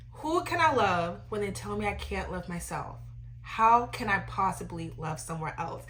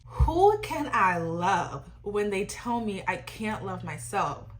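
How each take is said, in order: First: Said in the usual way. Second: Slow, drawn-out famous quote; quoting Brent. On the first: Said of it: "let me read it back". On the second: Retold or imitated. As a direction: lay the quote out slowly. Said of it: "in the famous words of Brent himself".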